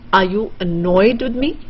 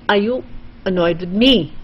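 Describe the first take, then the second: First: The stress falls on the word annoyed. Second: The stress falls on the word me. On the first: "you want to stress on annoyed" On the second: "then you want to stress on me"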